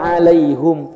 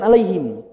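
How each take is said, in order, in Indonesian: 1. Vokal sebelum m terakhir adalah u. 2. Vokal sebelum m terakhir adalah i. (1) "Kiroat Hamzah" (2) "Bukan alaihim"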